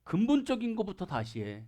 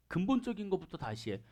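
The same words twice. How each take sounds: First: Said in the usual way. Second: 근본적인 것부터 다시 해 said again much softer; quiet, firm insistence; soft repeat. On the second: Shown as a demonstration. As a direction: drop the voice right down on 근본적인 것부터 다시 해. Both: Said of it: "그러면서 딱 해요".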